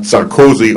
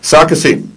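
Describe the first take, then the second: First: The name is said with an American pronunciation. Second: The name is said with a European pronunciation.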